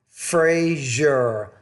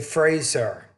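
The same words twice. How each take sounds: First: The middle consonant is a zh sound. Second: The middle consonant is a plain z sound. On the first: The speaker calls it right. "It's kind of like a Z and a J together" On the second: The speaker calls it wrong. "You tend to say Fraser"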